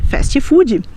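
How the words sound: It is said with a Brazilian Portuguese pronunciation. "nós vamos chamar de fast food"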